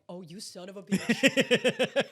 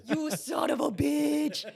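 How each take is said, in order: First: Drawn-out mock accusation; slow dawning realization. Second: High, slow, hollered accusation; gleeful mock shout. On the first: Host spots Ezra's little smirk, slow dawning realization. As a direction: let it dawn slowly, stretching the last word. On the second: Host realizes Ezra's trick, gleeful mock shout. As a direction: holler it high, stretching every word.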